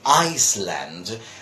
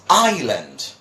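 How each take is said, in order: First: The s in the middle is pronounced. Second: The s in the middle is silent. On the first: The speaker calls it wrong. "but that is not the pronunciation" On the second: The speaker calls it right. "no S"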